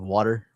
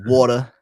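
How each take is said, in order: First: It is said in a general American accent. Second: It is said in a Boston accent.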